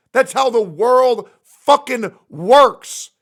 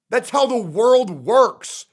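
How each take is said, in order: First: Slow, much louder, punching world; slow shouted conclusion; loud slow rant. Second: Slow, louder, each word weighed; slow heavy declaration; slow emphatic rant. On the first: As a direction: hammer it home louder. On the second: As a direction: drive the point home slowly. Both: Real, not acted. Emphatic ranting repeat.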